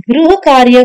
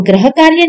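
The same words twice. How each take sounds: First: गृह कार्य opening "griha"; correct gri. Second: गृह कार्य opening "graha"; wrong gra. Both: Shown as a demonstration. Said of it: "गृह कार्य बोलते हैं".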